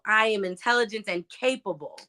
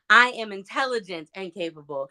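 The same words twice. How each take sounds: First: The stress falls on the word "capable". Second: The stress falls on the word "intelligent".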